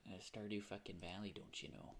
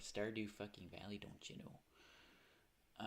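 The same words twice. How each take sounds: First: Put-on Midwest accent. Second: Exaggerated Midwest drawl, trailing off; a hokey Midwest "don't you know"; Midwest accent. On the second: Shown as a demonstration. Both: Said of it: "that Midwest accent for it".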